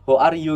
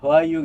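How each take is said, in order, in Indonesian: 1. Setiap kata diucapkan dengan jelas dan terpisah. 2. Kata-katanya diucapkan menyambung dan tidak jelas. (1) "jelas ya pronounsnya" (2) "nyeret gitu"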